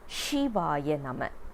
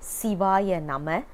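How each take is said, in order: First: The first word begins with a sh sound. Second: The first word begins with a plain s sound. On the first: It becomes like pronouncing a name. The speaker calls it wrong. "we don't pronounce it as Shivaya Nama" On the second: It is the mantra form. The speaker calls it right. "Siva is a mantra because Si has a significant meaning"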